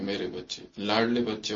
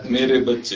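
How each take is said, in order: First: Soft, low endearment; loving address. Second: Put-on louder fond call to children; loving address. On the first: Baba to his darling children, softly loving. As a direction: speak tenderly, dropped low and quiet. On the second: Baba addressing his children, loud and loving. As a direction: call out lovingly, with more volume. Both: Shown as a demonstration. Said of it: "پیار سے بولو ایک دو سے".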